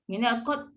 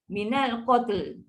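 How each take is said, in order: First: The word ends without any final L sound. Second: The word ends with a clear final L sound. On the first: The speaker calls it wrong. "Kita tak boleh baca minal qat. ... tu lam mana pergi?" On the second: The speaker calls it right. "lidah kita kena naik ke atas lah"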